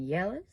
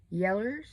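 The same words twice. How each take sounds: First: Said in the usual way. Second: "Yellers" with an -ers ending; old kinfolk's pronunciation. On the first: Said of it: "Yellers, as my older kinfolk said". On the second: Retold or imitated. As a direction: say "Yellers" folksy, ending in -ers not -ows. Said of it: "older kinfolk said back in the past".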